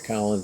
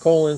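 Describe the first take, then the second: First: The name is said the usual British way. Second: The name is said a different, non-British way. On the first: This is how people from the UK say it. "if you're from the U K, you're going to say Colin" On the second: This is the pronunciation the family preferred. "his mother preferred the pronunciation Colin"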